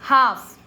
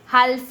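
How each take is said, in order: First: The L sound is silent in the word. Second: The L sound is pronounced in the word. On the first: The speaker calls it right. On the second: The speaker calls it wrong.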